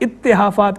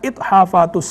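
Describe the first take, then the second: First: It has a doubled t and extra vowel. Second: It has a single t followed by h. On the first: The speaker calls it wrong. "लोग इसे गलत तौर पर इत्तेहाफात कहते रहते हैं" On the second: The speaker calls it right. "दुरुस्त नाम अल इत्हाफ़ातुस सनिया है"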